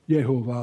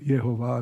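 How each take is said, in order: First: The name begins with an English J sound. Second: The name begins with a Y sound. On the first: "or however you want to pronounce it" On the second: "if you use the German J"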